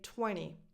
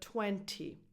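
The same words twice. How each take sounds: First: The t after the n is dropped. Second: The t after the n is clearly pronounced.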